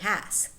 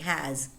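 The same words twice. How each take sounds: First: The word ends with a hissing s sound. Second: The word ends with a buzzing z sound. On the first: The speaker calls it wrong. "Native speakers, of course, would never say has" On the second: The speaker calls it right. "They would say has"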